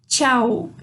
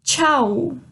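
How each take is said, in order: First: Tchau said with a falling tune. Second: Tchau said with a rising tune. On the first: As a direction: let tchau fall like a final goodbye. (tchau com entonação descendo) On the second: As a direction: lift tchau upward like a question. (tchau com entonação subindo) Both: Shown as a demonstration. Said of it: "A segunda é o".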